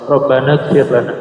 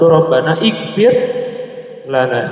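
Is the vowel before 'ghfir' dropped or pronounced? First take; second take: dropped; pronounced. First: The words run together with no vowel before ghfir. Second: Each word is separate, with a vowel before ghfir. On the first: The speaker calls it right. "wasal ya" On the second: The speaker calls it wrong. "Kalau antum baca satu-satu"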